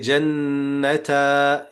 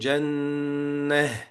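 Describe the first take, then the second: First: The word ends with a t and a vowel. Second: The word ends with a soft h sound. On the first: The speaker calls it wrong. "you don't say jannata" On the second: The speaker calls it right. "You say jannah"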